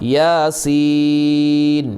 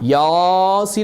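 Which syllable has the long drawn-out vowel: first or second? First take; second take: second; first. First: The second syllable is drawn out long. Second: The first syllable is drawn out long. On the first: The speaker calls it right. "സീനിനാണ്" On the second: The speaker calls it wrong. "അങ്ങനെ യാസീൻ എന്നല്ല, യാക്ക് നീട്ടില്ല"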